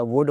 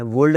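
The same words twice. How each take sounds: First: "वुड" with no L; silent L. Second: "वुल्ड" with an L before the D; L sounded. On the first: Teacher correcting learners, L left silent. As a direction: drop the L, "वुड". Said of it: "वुड होता है". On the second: Teacher showing the mistake, L sounded. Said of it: "वुल्ड नहीं होता". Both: Shown as a demonstration.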